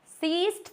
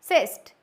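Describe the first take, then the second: First: The vowel is a long ee sound. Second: The vowel is a short i sound. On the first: The speaker calls it wrong. "सीस्ट तो नहीं पढ़ते हैं इसको" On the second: The speaker calls it right. "It sound like a short आई"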